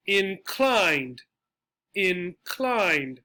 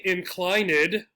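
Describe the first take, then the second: First: Said in the usual way. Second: "inclined" with the -ed sounded out as its own syllable; deliberate misreading of "inclined" with an extra -id ending; wrong three-syllable pronunciation. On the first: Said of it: "and this is one". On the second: Shown as a demonstration. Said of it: "then it would be three syllables".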